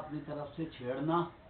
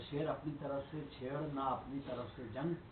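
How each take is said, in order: First: The phrase breaks off with a pause after chhedna. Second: It is read without a break after chhedna.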